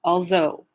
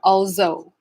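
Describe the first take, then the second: First: The middle consonant is a z sound. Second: The middle consonant is a z sound.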